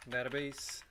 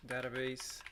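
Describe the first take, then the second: No difference in how they are said.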